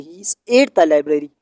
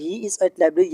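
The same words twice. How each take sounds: First: "at the" drawn out in "he is at the library"; stress on "at the". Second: Said in the usual way. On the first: Shown as a demonstration. Teacher giving the corrected sentence, "at the" stressed. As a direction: lean on "at the" to mark the added article. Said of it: "और ये सही है". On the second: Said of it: "ये गलत है".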